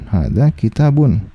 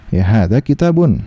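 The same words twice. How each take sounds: First: Slowed down, each word drawn out; slow repeat. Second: Said in the usual way. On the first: Shown as a demonstration. Teacher repeating the example slowly for students. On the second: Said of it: "ya misalnya hadza".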